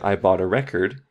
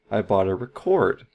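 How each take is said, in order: First: The stress in 'record' is on the first syllable. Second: The stress in 'record' is on the second syllable. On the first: The speaker calls it right. "So we could say I bought a record" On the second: The speaker calls it wrong. "Sounds very weird"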